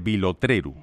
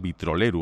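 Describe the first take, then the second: First: The word begins with the syllables 'vilo'. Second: The word begins with the syllables 'vitro'. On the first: The speaker calls it right. "es vilotreru" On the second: The speaker calls it wrong. "creo que la he pronunciado mal, porque he dicho vitroleru"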